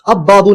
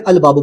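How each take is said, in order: First: The L merges into a doubled b sound. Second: The L is clearly pronounced before the b. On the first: The speaker calls it wrong. "अब बाबू नहीं बोलेंगे" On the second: The speaker calls it right. "अल बाबू बोलेंगे, इसमें लाम प्रोनाउंस होगा"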